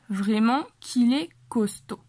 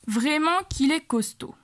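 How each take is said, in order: First: Slower, every word clear; slow repeat. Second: Said in the usual way. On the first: Shown as a demonstration. Teacher slowly repeating the line for students. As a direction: spell it out slowly for learners. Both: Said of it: "De verdad que fuerte es".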